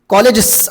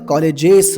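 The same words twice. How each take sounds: First: The plural ends in a bare s sound. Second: The plural ends in an added iz syllable. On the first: The speaker calls it wrong. "एस झालं ते कॉलेजेस असं म्हणत नाही" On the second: The speaker calls it right. "कॉलेजेस म्हणतो"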